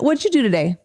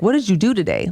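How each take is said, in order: First: It sounds warm and friendly, like a real question. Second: It sounds harsh and accusing, like a statement. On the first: It is a caring question about the other person's day. The speaker calls it right. "Like how I would ask" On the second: It sounds like a demand for an account, not a real question. The speaker calls it wrong. "when you say it the other way, it's like a statement"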